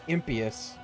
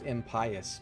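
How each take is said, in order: First: The word does not sound like 'pious' inside. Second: The word is said with 'pious' clearly inside. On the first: This is an unfamiliar way of saying it. "I've never heard it pronounced that way" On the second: This is the way the word was assumed to sound. "I always thought it was impious, because the word is pious"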